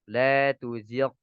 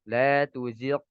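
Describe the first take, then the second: No difference in how they are said.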